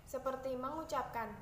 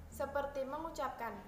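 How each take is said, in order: Both takes have the same delivery.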